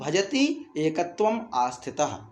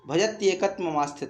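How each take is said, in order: First: The words are split and said separately. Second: The words are run together as one compound. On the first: "तो क्या कर देंगे हम" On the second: "अब इसको पढ़ने में नहीं आ पा रहा है"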